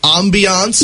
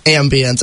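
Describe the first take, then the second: First: The word is said in a fancy, highbrow way. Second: The word is said in a plain, ordinary way. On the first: The speaker calls it wrong. "I'm going to need you to stop saying ambiance because you're not highbrow" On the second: The speaker calls it right. "actually pronounce it correctly, it's ambience"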